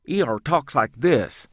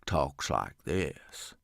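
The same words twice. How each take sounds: First: Higher, louder quick clipped hillbilly; wiry hillbilly E R. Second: Much lower, slow voice pushed through the jowls; heavy slow hillbilly Crick. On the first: Voice actor demos a wiry quick hillbilly character, clipped. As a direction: snap it out like a skinny sharp-witted cousin. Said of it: "He speaks more clipped". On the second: Voice actor demos the heavy hillbilly, low and slow through jowls. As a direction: drag it out like a four-hundred-pound cousin. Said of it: "is slow and speaks more through his jowls". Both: Shown as a demonstration.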